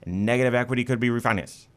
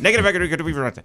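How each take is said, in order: First: The phrase is spoken at a slower pace. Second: The phrase is spoken at a faster pace.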